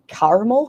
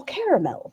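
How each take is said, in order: First: Caramel said as two syllables, "kar-ml"; caramel as car-mel. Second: Caramel said in three syllables, "kair-uh-mel"; caramel as care-a-mel. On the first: Streamer mocking her own doubt, saying Caramel as kar-ml. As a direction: clip it to "karml". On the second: Streamer mocking her own doubt, saying caramel as kair-uh-mel. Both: Retold or imitated. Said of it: "You're like".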